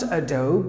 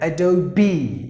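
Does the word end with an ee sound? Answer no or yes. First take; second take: no; yes. First: The word ends without a final ee sound. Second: The word ends with a final ee sound. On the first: The speaker calls it wrong. "It's not Adobe" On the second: The speaker calls it right. "Just imagine that there is one more E"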